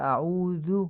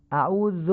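First: اعوذ ending in short "dhu"; "a-udhu" for اعوذ; short u closing اعوذ, not o; Arabic damma. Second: اعوذ ending "zo"; higher demo of اعوذ with o; "a-uzo" for اعوذ, open final o; Persian damma. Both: Shown as a demonstration.

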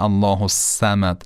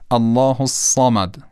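First: الصمد said with a plain thin s and short a; الصمد نادرست با صاد نازک; wrong light ص. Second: الصمد with the alif after ص cut short and heavy; الصمد با الف کوتاه و صاد درشت; short clipped alif. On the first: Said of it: "و نه الله الصمد". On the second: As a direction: say الصمد with a quick clipped long a and a thick ص. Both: Shown as a demonstration.

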